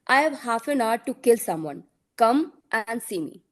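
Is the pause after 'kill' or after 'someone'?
after someone. The pause comes after 'someone'.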